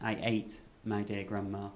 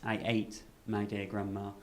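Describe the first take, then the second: First: There is a pause after "ate". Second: There is a pause after "ate".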